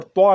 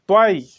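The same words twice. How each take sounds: First: "त्वा" ending on an open aa; reading to avoid. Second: "त्वाई" loud, with a falling i glide at the end; corrected letter name. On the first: Teacher warns learners off this reading, "त्वा" ending in aa. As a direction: say "त्वा" with no final i glide. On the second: Teacher corrects the letter's name, loud "त्वाई" with final glide. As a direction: punch out "त्वाई", ending in aa-ee. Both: Shown as a demonstration. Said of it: "यहाँ पर त्वा नहीं पढ़ना है".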